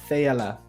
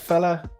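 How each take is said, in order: First: The name is said with three syllables. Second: The name is said with two syllables. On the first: "or Fayella" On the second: "as in the A is silent"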